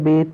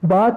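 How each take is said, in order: First: It is said with an Urdu-style 'e' vowel. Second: It is said with an Arabic-style 'a' vowel. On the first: The speaker calls it wrong. "Urdu तलफ़्फ़ुज़ में नहीं पढ़ेंगे कि जैसे" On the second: The speaker calls it right. "अरबी लहजे में अदा करेंगे"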